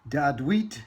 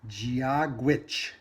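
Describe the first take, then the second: First: It begins with a D sound, 'dad-weet'. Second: It begins with a J sound, 'jee-a-gwitch'. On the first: The speaker calls it wrong. "it's not Dadweet" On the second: The speaker calls it right. "it's Giagwitch"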